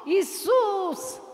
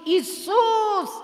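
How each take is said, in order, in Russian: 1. Имя произнесено с сильными эмоциями. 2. Имя произнесено с сильными эмоциями.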